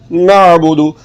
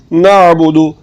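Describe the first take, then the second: No difference in how they are said.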